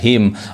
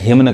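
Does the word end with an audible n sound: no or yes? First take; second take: no; yes. First: The word ends on m with no n. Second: The word ends with an audible n sound. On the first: The speaker calls it right. "क्या पढ़ाएगा, हिम" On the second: The speaker calls it wrong. "गलत होता है"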